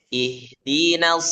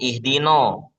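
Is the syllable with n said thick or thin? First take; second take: thin; thick. First: The n syllable is thin, with an a-like vowel. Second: The n syllable is thick, with an o-like vowel. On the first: The speaker calls it right. "Nunnya dibaca tipis" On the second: The speaker calls it wrong. "jangan ihdino"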